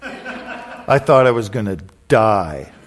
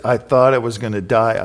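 First: Laughing. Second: Said in the usual way. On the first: Real, not acted. Laughing at embarrassing memory.

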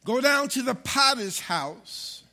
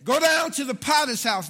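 First: Loud, slow, weighty proclamation; slow down and declare it to the church; emphatic scripture reading. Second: Loud, high, half-sung preacher's shout; preaching at full force. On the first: Pastor reads God's command to the congregation, slow and emphatic. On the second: Pastor rereads the verse to rouse the congregation, shouted and half-sung. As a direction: belt it out in a singing whoop. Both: Acted.

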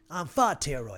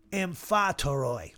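First: Amphoteroi with the accent hit too hard; overstressed accent. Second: Amphatoroi said slowly with the accent placed carefully; slow, careful amphatoroi with the right accent; corrected accent. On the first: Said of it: "I'm emphasizing the accent". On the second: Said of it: "there's the accent". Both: Shown as a demonstration.

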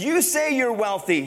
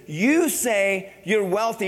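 First: "you" leaned on in "You say you're wealthy"; stress on you. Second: "You say you're wealthy" drawn out slowly, "you" stressed; slow, weighty accusation; slow measured rebuke. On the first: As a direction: hit "you" hard, falling. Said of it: "he says". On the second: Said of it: "Jesus says". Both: Shown as a demonstration.

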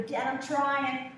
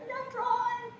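First: Put-on louder, slow, pleading child; pleading with Dad. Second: Squeaky, much higher whine; whiny child. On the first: Daughter answering her father's sermon, slow and loud. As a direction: drag it out, begging Dad to understand. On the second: Retold or imitated. Daughter whining back at her lecturing dad, very high. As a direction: whine it like a little girl. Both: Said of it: "I go".

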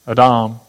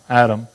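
First: "Adam" as ah-DAHM, stress on the second syllable; Hebrew pronunciation. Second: "Adam" as AD-um, stress on the first syllable; short a up front in "Adam", weak ending; English pronunciation. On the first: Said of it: "they pronounce it different". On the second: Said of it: "We just say Adam". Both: Shown as a demonstration.

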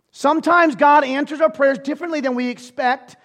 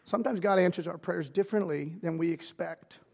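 First: Loud preaching. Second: Soft repeat. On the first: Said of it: "same line said loud earlier". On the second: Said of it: "repeated line, now soft". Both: Shown as a demonstration.

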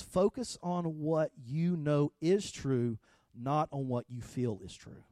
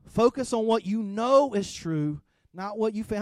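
First: Very slow and deliberate, each word weighed; slow quoted maxim. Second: Louder and higher, pressing the word know; louder emphatic repeat. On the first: Retold or imitated. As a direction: lay out the maxim slowly. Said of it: "He says". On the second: Acted. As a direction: drive the maxim home to the congregation. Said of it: "repeats the maxim louder".

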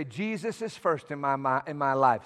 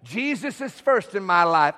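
First: Low, soft aside; private prayer. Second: Firm spoken declaration for all to repeat; said out loud. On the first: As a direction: say it low, as if praying in your head. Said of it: "in your mind every day, when you're praying". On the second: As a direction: declare it aloud to the congregation. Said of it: "Say it out loud". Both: Shown as a demonstration.

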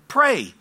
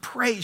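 First: "Pray" punched high and loud; "Pray" in one loud, falling burst; emphatic urging. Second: Said in the usual way. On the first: Retold or imitated. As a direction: urge "Pray" as a raised, forceful command. Repeats the urging with force.

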